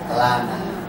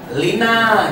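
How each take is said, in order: First: The first vowel is an 'a' sound. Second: The first vowel is an 'i' sound. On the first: The speaker calls it right. "tapi yang betul lana" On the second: The speaker calls it wrong. "jangan diterjemahkan lina"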